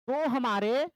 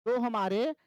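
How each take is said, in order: Both takes have the same delivery.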